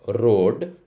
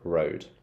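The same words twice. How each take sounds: First: The R sound is rolled. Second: The R sound is flat. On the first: The speaker calls it wrong. "I'm not rolling the R" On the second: The speaker calls it right. "a flatter sound"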